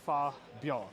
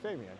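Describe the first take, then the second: First: The name is said with a French pronunciation. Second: The name is said with an English pronunciation. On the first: This is how the local announcer says it. The speaker calls it right. "but they say Fa Bien" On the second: This is how the speaker would naturally say it. The speaker calls it wrong. "I'll say Fabien"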